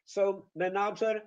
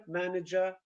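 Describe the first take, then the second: First: Manager said maNAger; Polish-style stress. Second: Manager said MANager; English stress. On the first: Teacher imitates the Polish stress in manager. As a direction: say manager with the stress on the second syllable. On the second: Teacher models the English manager. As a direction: say manager with the stress on the first syllable. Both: Shown as a demonstration. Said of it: "completely different places where the stress is".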